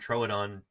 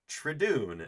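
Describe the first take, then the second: First: The name is said as Troodon. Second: The name is said as Tridoon. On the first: The speaker calls it right. "the name Troodon" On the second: The speaker calls it wrong. "she pronounces the name Troodon Tridoon"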